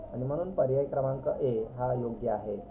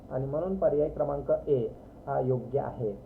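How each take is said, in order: No difference in how they are said.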